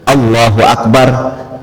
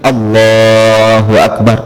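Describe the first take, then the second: First: The phrase is said short and quick. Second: The phrase is drawn out and lengthened. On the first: The phrase ends before the movement is finished. The speaker calls it wrong. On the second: The phrase lasts through the whole movement. The speaker calls it right.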